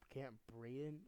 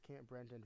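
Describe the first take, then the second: First: The name is said without an extra n sound. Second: The name is said with an extra n sound. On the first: The speaker calls it right. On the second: The speaker calls it wrong.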